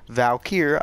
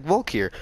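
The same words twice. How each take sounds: First: Valkyr with "val" up front; fuller pronunciation. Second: Volkir with "vol" up front; own pronunciation. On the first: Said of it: "I say it like Volkir". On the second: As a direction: say Volkir as "VOLE-keer". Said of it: "I say it like". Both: Shown as a demonstration.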